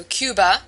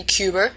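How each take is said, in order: First: Said in the usual way. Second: "Cuber" with an extra R added at the end; intrusive R. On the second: Shown as a demonstration. Teacher showing the New England added R: "Cuber". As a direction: say Cuba ending in "-er": "Cuber". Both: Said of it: "Cuba would be Cuber".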